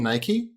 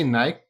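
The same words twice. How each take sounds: First: Nike as NY-kee; two-syllable Nike ending in ee; American pronunciation. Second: Nike rhyming with bike; one-syllable Nike, no final ee; British pronunciation. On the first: Shown as a demonstration. American asks if he means the brand, Nike with final ee. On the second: Retold or imitated. American quotes the British co-host, Nike as one syllable. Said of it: "when you say Nike".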